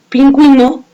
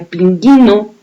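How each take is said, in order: First: The u after the g is pronounced. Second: The u after the g is silent. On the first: The word is written with the diaeresis. "ya le damos sonido a la U y podemos pronunciar pingüino" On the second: The word is written without the diaeresis. "Si no la escribimos, sonaría pinguino"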